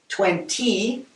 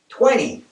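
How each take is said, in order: First: It is said in a British way. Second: It is said in a North American way.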